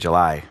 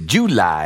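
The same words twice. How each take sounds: First: It is said in a plain, flat accent. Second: It is said in a Southern US accent. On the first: The speaker calls it wrong. "I just grew up saying July. It's so boring" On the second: The speaker calls it right. "And they say July"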